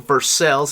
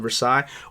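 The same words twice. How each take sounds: First: It is said with a Kentucky-style pronunciation. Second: It is said with a standard pronunciation.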